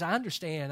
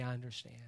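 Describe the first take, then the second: First: Said in the usual way. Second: Soft empty phrase. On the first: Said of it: "I cannot say". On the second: Shown as a demonstration. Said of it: "I cannot say, "I understand".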